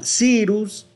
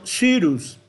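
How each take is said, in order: First: The first vowel is a plain i sound. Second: The first vowel is a rounded ü sound. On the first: The speaker calls it wrong. "no se diría tal cual Cyrus con la I" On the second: The speaker calls it right. "sino Cyrus"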